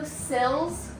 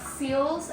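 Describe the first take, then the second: First: The vowel is short, rhyming with 'fill'. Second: The vowel is long, rhyming with 'feel'. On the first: "window sills" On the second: "not seals"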